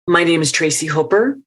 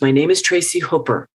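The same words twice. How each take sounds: First: The voice rises at the end. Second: The voice falls at the end. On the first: The speaker sounds unsure, as if asking permission. The speaker calls it wrong. "at the end of the sentence, her voice goes up" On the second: The speaker sounds confident and declarative. The speaker calls it right. "come down the stairs"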